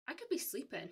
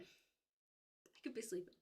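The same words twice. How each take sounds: First: Said in the usual way. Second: Slow, much softer, sleepy; sleepy murmur, trailing away; dreamy drawn-out murmur. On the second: Shown as a demonstration. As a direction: let it drift off like falling asleep. Repeated softly, slowly.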